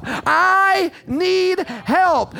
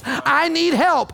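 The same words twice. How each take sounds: First: High cry, each word hugely drawn out; raised voice. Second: High, raised cry for help. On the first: Believer calling to Jesus for help, long raised cry. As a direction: stretch every word into a long, high plea. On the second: Believer calling to Jesus for help, raised voice. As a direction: cry it out slowly as one phrase. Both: Acted. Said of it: "I'm raising my voice".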